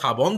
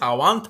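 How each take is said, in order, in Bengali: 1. মাঝের ব্যঞ্জনটি b ধ্বনি। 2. মাঝের ব্যঞ্জনটি w ধ্বনি। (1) "আমরা সাবন্ত বলছি" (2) "অনেক জায়গায় সাওয়ান্ত বলে"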